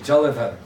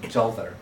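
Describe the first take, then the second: First: A vowel is pronounced between the L and V. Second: The vowel between the L and V is dropped. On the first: This is the form the classical language calls for. "it should actually be in Sanskrit Jalavar" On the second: This is how the speaker says it in everyday speech. "but I pronounce it Jalvar"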